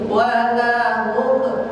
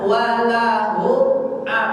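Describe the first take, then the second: First: The m sound is blurred into the next sound. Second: The m sound is clear and crisp. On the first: The speaker calls it wrong. "jangan begini walahum" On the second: The speaker calls it right. "jelas kan?"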